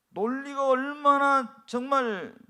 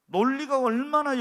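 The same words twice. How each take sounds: First: 얼마나 drawn out slowly and stressed; slow, weighty emphasis on 얼마나. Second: Said in the usual way. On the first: Shown as a demonstration. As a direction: lean on 얼마나 in 논리가 얼마나 정말.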